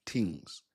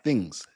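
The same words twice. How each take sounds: First: "things" with a hard T, lower and softer; Jamaican "tings". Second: Said in the usual way. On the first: Shown as a demonstration. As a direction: say "things" as "tings", dropping the h sound. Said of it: "when Jamaicans say". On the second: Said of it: "like, like, not things".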